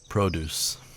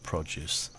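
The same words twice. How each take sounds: First: It is said with an American pronunciation. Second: It is said in the speaker's own non-American accent.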